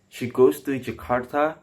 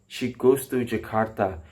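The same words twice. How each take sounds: First: The pitch goes higher on the last word. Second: The pitch stays low on the last word. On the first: It asks a question. "if you produce with a high, higher tone in the last words" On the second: It gives information. "it shows like uh, information sentence"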